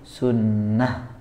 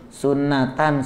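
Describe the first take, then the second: First: The word ends with a soft 'h' sound. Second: The word ends with a full 'tan' sound. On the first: The reader stops on the word. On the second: The word is read without stopping on it.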